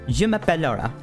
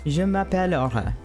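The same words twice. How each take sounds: First: A Canadian French accent with percussive, clipped delivery. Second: A European French accent with smooth, flowing delivery. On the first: "using a more Canadian accent ... It's very percussive" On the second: "in France the it flows a lot more. It's a very smooth delivery of it"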